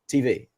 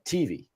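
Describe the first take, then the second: First: The stress is on the V. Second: The stress is on the T.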